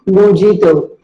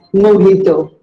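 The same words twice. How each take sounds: First: Mojito with a hard English J; mojito, the mispronounced way; wrong version. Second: Mojito with the J said as H, mo-hee-to; mojito, the Spanish way; mojito, the model way; correct pronunciation. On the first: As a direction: mojito as mo-jee-to, the common mistake. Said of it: "not mojito". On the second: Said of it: "The J is pronounced as H". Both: Shown as a demonstration.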